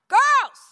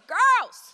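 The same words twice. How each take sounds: First: It is called out louder still. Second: It is called out somewhat louder. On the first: This is a final warning. "I say it a little bit louder" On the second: The speaker is getting irritated. "this time I say it a little bit louder"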